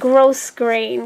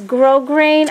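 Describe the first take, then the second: First: The first word ends with an S sound. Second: The first word has no S sound. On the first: "I pronounce it gross grain because the S to me is not silent" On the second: "people pronounce this grow grain"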